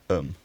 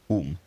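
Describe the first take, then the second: First: The ending has a reduced, weak vowel. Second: The ending has a full, clear vowel.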